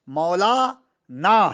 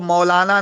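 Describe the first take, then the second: First: There is a pause between maula and na. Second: It is said as one word without a break. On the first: He is not a master. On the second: It is the title for a religious scholar.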